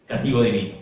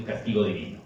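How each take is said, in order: First: "Castigo divino" repeated louder, punching "castigo" with a falling tune; stressed repeat. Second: Said in the usual way. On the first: Shown as a demonstration. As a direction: hammer home "Castigo divino" as a louder echo. ("Castigo divino" repetido más fuerte, con énfasis en "castigo")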